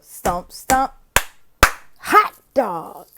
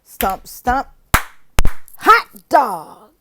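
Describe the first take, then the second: First: Chanted again, lighter hot dog; classroom cheer demo. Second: Chanted stomp stomp, loud on hot dog; classroom cheer demo. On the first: Teacher repeating the class cheer, lighter chant. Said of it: "So that's it". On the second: Teacher demonstrating a class cheer, loud and chanted. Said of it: "So that's the stomp". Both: Shown as a demonstration.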